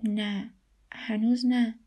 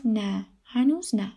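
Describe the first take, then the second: First: Mildly downcast admission; upset. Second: Said in the usual way. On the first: A narrator's reading. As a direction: admit it with understated sadness. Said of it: "ریحان خاتون با ناراحتی گفت".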